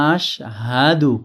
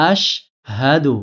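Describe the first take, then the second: No difference in how they are said.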